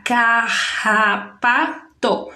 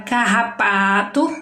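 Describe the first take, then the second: First: CARRAPATO slow, in four beats ca, rra, pa, to; split into syllables. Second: Said in the usual way. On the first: Shown as a demonstration. Teacher showing how to separate the word, syllable by syllable. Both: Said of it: "vai separar".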